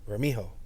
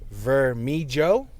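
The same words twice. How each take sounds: First: The J is sounded like an H, Spanish-style. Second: The J is sounded like an English J.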